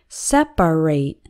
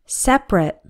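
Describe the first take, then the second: First: The word is said with three syllables. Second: The word is said with two syllables. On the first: The word is used as a verb. "it is pronounced with three syllables" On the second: The word is used as an adjective. "this only applies when separate is used as an adjective"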